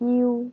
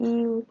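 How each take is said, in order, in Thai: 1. สระสองเสียงไหลควบกันเป็นเสียงเดียวคะ 2. สระสองเสียงไหลควบกันเป็นเสียงเดียวคะ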